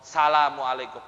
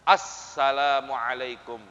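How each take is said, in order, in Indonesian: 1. Bunyi 'al' di awal hilang. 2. Bunyi 'al' di awal jelas terdengar. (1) "Ada nggak alif lamnya? Kurang" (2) "Harusnya apa?"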